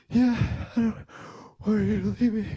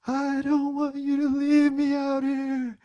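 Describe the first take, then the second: First: High, loud, broken-up mock sobs; sobbing little kid. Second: High, loud mock wail; hammed-up toddler crying through the words; bawling little kid. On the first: Son admitting fear to dad, imitated sobbing. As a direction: imitate a child hiccuping words through tears. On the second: Son begging dad not to leave, imitated bawling. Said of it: "that was the kind of crying".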